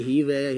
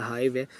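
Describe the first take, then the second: First: हीव said with a long "ee"; long-ee pronunciation. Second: हाइव said with an "eye" vowel; long-i pronunciation. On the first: Teacher unsure how the bee word is pronounced, हीव with long "ee". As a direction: say हीव to rhyme with "sleeve". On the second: Teacher offering students the other pronunciation, हाइव with "eye" sound. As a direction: say हाइव to rhyme with "five". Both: Shown as a demonstration. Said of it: "इसकी pronunciation के लिए sorry".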